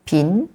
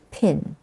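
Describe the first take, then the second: First: "pin" with a softened Malaysian p; Malaysian pronunciation. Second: "pin" with an English puffed p; English plosive. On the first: Teacher shows what Malaysian says, Malaysian pronunciation. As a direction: say "pin" Malaysian style, little puff on the p. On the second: Teacher shows how we say pin, English plosive. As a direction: start "pin" with a clear aspirated English p. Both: Shown as a demonstration. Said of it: "what Malaysian says".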